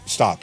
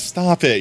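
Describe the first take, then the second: First: It sounds seriously uncomfortable. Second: It sounds playful and flattered.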